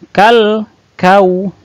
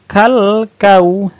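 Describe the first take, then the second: The two takes are said the same way.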